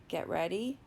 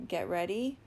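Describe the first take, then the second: No difference in how they are said.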